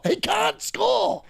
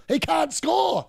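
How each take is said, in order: First: Much higher and slow, stretching "score"; drawn-out mock wail. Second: Said in the usual way. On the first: Real, not acted. Fan mocking the striker, now in a drawn-out high wail.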